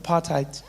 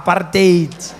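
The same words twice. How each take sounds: First: "Apartheid" with a soft ending; "Apartheid" as people say it now; apartheid said the new way. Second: "apartheid" said "paartate" with a rolled r; "apartheid" said the harsh Afrikaans way; Afrikaans pronunciation. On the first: Comic showing how it is said today. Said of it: "Notice how we say it like that these days". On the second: Comic giving the real word, harsh Afrikaans pronunciation. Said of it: "that sounds worse". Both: Shown as a demonstration.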